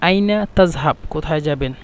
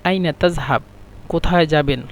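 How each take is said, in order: Both takes have the same delivery.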